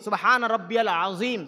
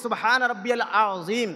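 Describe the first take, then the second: Both takes have the same delivery.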